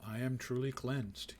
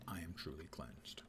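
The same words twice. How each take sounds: First: Slow, measured proclamation; mock declaration. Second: Low, soft afterthought; quiet aside. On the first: Player announces being cleansed to viewers, mock declaration. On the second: Pretend. Player repeats the news to unaware viewers, quiet aside. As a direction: drop it low and under your voice.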